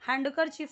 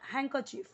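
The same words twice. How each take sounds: First: The d sound is clearly pronounced. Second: The d sound is left silent. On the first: The speaker calls it wrong. "हैंडकरचीफ नहीं बोलना" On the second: The speaker calls it right. "ये डी यहाँ पे पूरा का पूरा क्या हो जाता है, साइलेंट हो जाता है"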